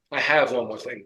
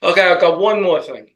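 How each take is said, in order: First: Said in the usual way. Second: Slips into his own New York accent on "I've got". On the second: Real, not acted. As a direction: says "I've got one more thing" the New York way. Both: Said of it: "I couldn't even lose my New York accent".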